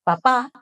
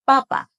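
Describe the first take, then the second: First: Papá with the final á held; accent on last syllable. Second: Papa with both syllables short and even; no final accent. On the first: Teacher naming the dad word, Papá end-stressed. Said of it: "with the accent". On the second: Teacher naming the potato word, Papa short and even. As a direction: say Papa quick, no held ending. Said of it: "without the accent". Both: Shown as a demonstration.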